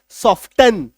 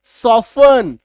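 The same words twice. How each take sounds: First: "सॉफ्टन" with the t spoken, sɔftən; wrong with t. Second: "सॉफ्टन" slow, t dropped, sɔfən; silent t. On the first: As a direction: say "सॉफ्टन" the mistaken way, t sounded. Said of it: "लोग इसमें क्या गलती करते हैं". ("सॉफ्टन" में टी बोलकर गलत उच्चारण) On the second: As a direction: say "सॉफ्टन" without the t. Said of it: "टी को काट दो". ("सॉफ्टन" बिना टी के) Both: Shown as a demonstration.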